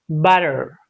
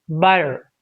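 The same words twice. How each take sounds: Both takes have the same delivery.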